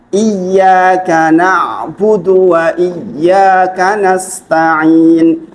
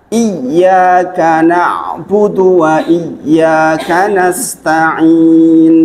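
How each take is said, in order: Both takes have the same delivery.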